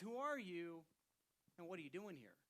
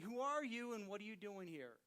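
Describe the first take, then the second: First: It is asked in a calm, plain tone. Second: It is asked in an annoyed, forceful tone.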